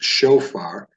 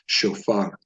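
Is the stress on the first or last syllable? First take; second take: first; last. First: The stress is on the first syllable. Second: The stress is on the last syllable.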